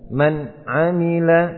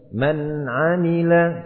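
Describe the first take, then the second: First: The n sound is held back and cut off. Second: The n sound flows slightly before stopping. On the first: The speaker calls it wrong. "Tidak dibaca man amila" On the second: The speaker calls it right. "Mengalir sedikit. Antara mengalir dan tertahan"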